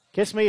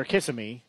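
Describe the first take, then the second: First: KISS ME as two clean syllables, kiss-mee; two-syllable name. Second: "Kiss Me" with an extra vowel, kiss-ih-mee; three-syllable name. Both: Shown as a demonstration. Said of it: "forgot how they pronounced it".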